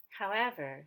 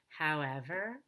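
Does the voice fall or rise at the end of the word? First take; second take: fall; rise. First: The pitch rises, then falls at the end. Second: The pitch falls, then rises at the end. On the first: The speaker calls it wrong. "regular intonation that goes up on the main stress and then down" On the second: The speaker calls it right. "I go down on however, and then I go up on er"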